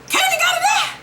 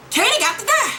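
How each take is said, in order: First: Very high shouted Kanan got to die; screaming Kanan got to die; shouted demand. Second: High insistent Kanan got to die; high, eager Kanan got to die; excited demand. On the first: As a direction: yell it for the world. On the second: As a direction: want him dead. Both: Real, not acted. Repeats it, then shouts.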